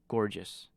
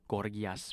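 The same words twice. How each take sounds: First: It is said with a plain English reading. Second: It is said with a Greek-like pronunciation. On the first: The speaker calls it wrong. "That's that's not how you pronounce it" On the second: The speaker calls it right. "that's how the Greeks would uh, pronounce it"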